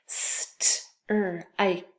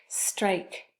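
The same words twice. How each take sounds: First: "St-er-ike" in separate sounds, st, r, ike; tapped out. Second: Said in the usual way. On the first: Shown as a demonstration. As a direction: break "St-er-ike" apart sound by sound. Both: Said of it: "let's tap it out".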